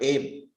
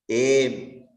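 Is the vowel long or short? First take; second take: short; long. First: The vowel is said short. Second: The vowel is said long. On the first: The speaker calls it wrong. "It is not aim" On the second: The speaker calls it right. "all these four are strictly dirgha. There is no hraswa"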